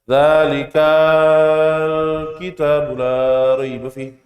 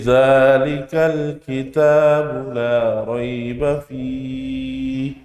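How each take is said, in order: First: It is recited freely, ignoring the recitation rules. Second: It is recited following rules for vowel lengths. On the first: The speaker calls it wrong. "kita bacanya boleh bebas-bebas aja" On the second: The speaker calls it right. "sesuai dengan tajwidnya"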